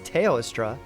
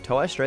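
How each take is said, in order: First: The name begins with a 'tay-oh' sound. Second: The name begins with a 'toe' sound. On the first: The speaker calls it right. "It's Teostra" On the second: The speaker calls it wrong. "whose name I always say incorrectly"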